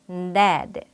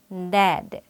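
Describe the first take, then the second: Both takes have the same delivery.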